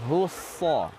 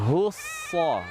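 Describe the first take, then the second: The two takes are said the same way.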